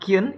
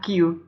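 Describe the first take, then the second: First: The word ends with an added n sound. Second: The word ends on a plain vowel sound. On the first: The speaker calls it wrong. "pengucapan Kyun, itu seharusnya yang benar adalah Q, bukan Kyun" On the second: The speaker calls it right. "seharusnya yang benar adalah Q"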